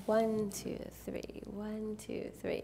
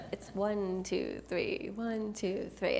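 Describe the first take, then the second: First: One two three fading to a whisper; soft, hushed slow dance count. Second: Said in the usual way. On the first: Shown as a demonstration. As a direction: count it gently so they copy you. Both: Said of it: "say it slow and soft".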